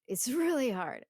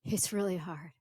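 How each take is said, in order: First: Louder and higher, a strained cry; anguished outburst. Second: Said in the usual way. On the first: Shown as a demonstration. Teacher voicing the poet, a loud strained outcry. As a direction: burst out with the strain of it. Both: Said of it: "Going back and forth".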